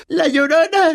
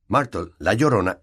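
First: High wailed llorona; sobbing. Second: Said in the usual way. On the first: A narrator's reading. Myrtle crying her nickname, wailing. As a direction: wail la llorona through tears. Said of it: "entre sollozos".

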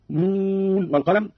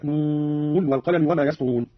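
First: Said in the usual way. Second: نون with the n said clearly before والقلم; clear nun. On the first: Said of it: "قرأ قالون بإظهار النون من الواو كحفص". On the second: Shown as a demonstration. Teacher demonstrates Qalun's clear nun slowly. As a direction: sound the n of نون fully, no merging. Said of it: "هكذا".

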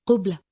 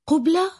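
First: Said in the usual way. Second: High, rising note of amazement; surprised worker's echoing question; astonished question. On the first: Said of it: "فأجاب". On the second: A narrator's reading. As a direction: ask it in amazed disbelief, pitch jumping up. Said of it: "وتساءل عامل متعجبا".

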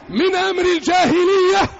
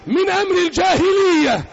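The two takes are said the same way.

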